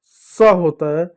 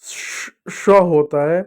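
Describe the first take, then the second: First: स drawn out slowly as a hiss; slow demo of स; slow hiss sound. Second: श drawn out slowly as a long hush; slow demo of श; slow hushing sound. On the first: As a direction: stretch स into a long s. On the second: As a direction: stretch श into a long soft sh. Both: Shown as a demonstration. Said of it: "यह".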